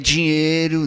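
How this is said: The d sound is softened and light. The speaker is from the Fortaleza coast. "ele é amaciado"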